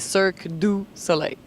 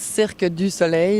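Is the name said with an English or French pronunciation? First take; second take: English; French. First: It is said with an English pronunciation. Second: It is said with a French pronunciation. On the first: "In English would be" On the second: "if you say it in French"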